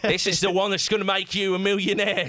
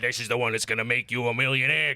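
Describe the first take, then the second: First: It is said in a British accent. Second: It is said in a gruff American accent.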